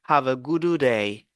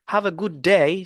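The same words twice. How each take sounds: First: Both d sounds are said separately. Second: The two d sounds merge into one. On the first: The speaker calls it wrong. "que have a good day" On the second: The speaker calls it right. "sonne plus naturel et fluide"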